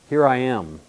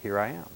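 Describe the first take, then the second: First: It is said sarcastically and arrogantly. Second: It is said humbly and meekly.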